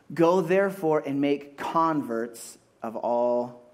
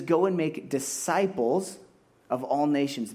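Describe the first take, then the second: First: "Go therefore and make converts of all" read slow and deliberate, mock-wrong; wrong version, slow. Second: "Go and make disciples" said slowly, rising on "go"; correct reading, slow. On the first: Preacher misquoting the verse on purpose, slow and deliberate. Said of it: "No, doesn't say that". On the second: Preacher giving the right wording after the wrong one, slow and firm. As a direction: read the true verse slowly and firmly. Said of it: "It says". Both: Shown as a demonstration.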